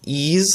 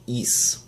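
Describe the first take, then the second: First: It rhymes with ease, ending in a z sound. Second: It rhymes with fleece, ending in an s sound. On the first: "while you can say it um, like uh, like ease" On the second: "or more accurately, is, like fleece"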